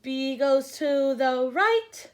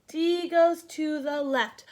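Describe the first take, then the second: First: "B goes to the right" very slow, "right" rising; slow teaching rule. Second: "D goes to the left" slow, falling; slow teaching rule. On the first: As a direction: spell out the rule slowly to remember. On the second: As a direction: state the rule slowly and firmly. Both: Shown as a demonstration. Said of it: "we wanna be careful".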